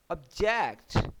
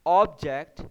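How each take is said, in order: First: object slow, weight moved to JECT; stress on second syllable. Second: object with a loud OB up front; stress on first syllable. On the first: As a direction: verb object, lean on the end. (दूसरे हिस्से पर ज़ोर) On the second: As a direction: noun object, hit the start. (पहले हिस्से पर ज़ोर) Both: Shown as a demonstration. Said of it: "उस part पे स्ट्रेस देनी है".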